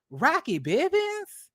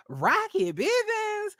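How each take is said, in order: First: Higher, slow disbelieving question; can't believe it's him; incredulous. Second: Much higher, slow shrieking question; utter disbelief. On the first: Mocking the affair over this man, in slow disbelief. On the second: Repeating the lover's name to viewers, in high, slow disbelief. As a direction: stretch the name in total disbelief. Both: Real, not acted.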